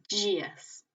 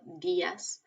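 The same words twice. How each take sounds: First: It starts with a soft, J-like sound. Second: It starts with a hard, plain D sound. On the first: This is how it is said in Portuguese. "en portugués decimos" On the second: This is how it is said in Spanish. "en español decimos muy marcado"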